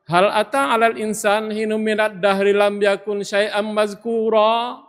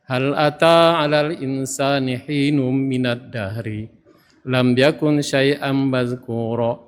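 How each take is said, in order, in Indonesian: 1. Dibaca dengan nada tanya. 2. Dibaca tanpa nada tanya. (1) "Hal itu sebenarnya pertanyaan. Idealnya dibaca kalau dalam bahasa bebas" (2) "Beliau membaca tidak kita rasakan"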